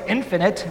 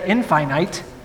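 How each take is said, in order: First: The middle sounds like 'fin', stressed at the start. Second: The middle sounds like 'fine', rhyming with finite. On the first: The speaker calls it right. "that's how we say infinite" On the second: The speaker calls it wrong. "We don't say infinite"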